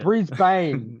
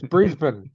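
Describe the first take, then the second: First: It is said with an American pronunciation. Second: It is said with an Australian pronunciation. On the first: The speaker calls it wrong. "Or Brisbane" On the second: The speaker calls it right. "it's Brisbane"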